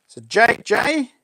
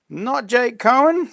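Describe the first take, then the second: First: So Jake J with J drawn out slowly; slow, lean on the J in Jake J; stress on J. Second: Not Jake Cohen with Cohen stressed and rising. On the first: Reading chat name, stressing the J. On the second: Correcting the name to chat, stressing Cohen. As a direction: slowly set Cohen apart from J. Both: Shown as a demonstration.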